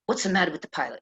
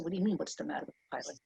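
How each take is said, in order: First: Lightly put-on Bronx accent. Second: Put-on quick, hushed reply in own accent; quiet retort. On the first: Woman grabs her seatmate about the pilot, Bronx accent. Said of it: "in this Bronx accent". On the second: Passenger questions her seatmate about the pilot, hushed and quick.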